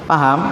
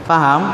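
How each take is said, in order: Both takes have the same delivery.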